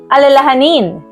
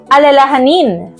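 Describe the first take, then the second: Both takes have the same delivery.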